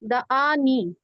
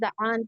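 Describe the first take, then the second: First: The word ends with a final 'ee' vowel. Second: The word ends without a final vowel. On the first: It is read following the grammar. "मैं ग्रामर के हिसाब से पढ़ रही हूँ" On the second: It is read following recitation practice. "तिलावत के हिसाब से पढ़ेंगे तो द आन पढ़ते हैं"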